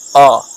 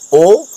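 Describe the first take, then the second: First: The vowel is said with an open sound. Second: The vowel is said with a closed sound. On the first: "le son ouvert qui c'est O" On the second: "le son fermé qui c'est O"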